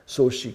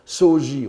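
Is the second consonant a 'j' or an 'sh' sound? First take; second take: sh; j. First: The second syllable starts with an 'sh' sound. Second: The second syllable starts with a 'j' sound. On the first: This is the current fashionable reading. "la mode sinologique japonaise tend à prononcer Soshi" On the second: This is the older reading. "qu'on prononçait souvent Soji autrefois"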